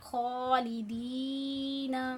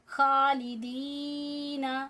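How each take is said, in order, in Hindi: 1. kh मोटा है, भरी हुई आवाज़ के साथ। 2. kh बारीक है, हल्की आवाज़ के साथ। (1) "मुंह को गोल करके, मोटी आवाज़ में" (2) "अगर हम इसे बारीक पढ़ेंगे"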